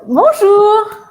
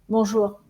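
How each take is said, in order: First: The greeting sounds lively and joyful. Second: The greeting sounds flat and closed. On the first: The speaker seems open and welcoming. The speaker calls it right. "Et la deuxième version" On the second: The speaker seems closed off. The speaker calls it wrong. "laquelle vous donne une fermeture"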